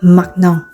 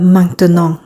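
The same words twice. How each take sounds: First: The middle syllable is left out. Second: All three syllables are pronounced.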